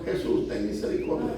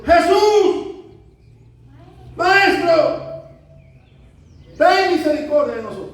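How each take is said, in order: First: Low, soft plea; inward cry. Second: Loud, high pleading shout; crying out. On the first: Sinner pleading privately to Jesus, quiet inward cry. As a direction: pray it under the voice, as if only inwardly. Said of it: "quizás para adentro". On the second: Lepers begging Jesus from a distance, crying out loudly. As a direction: call from far off for mercy. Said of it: "alzaron la voz diciendo". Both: Acted.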